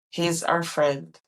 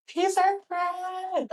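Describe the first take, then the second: First: Said in the usual way. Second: High slow. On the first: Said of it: "repeats line, then a changed take". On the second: Shown as a demonstration. Repeats line in high slow voice.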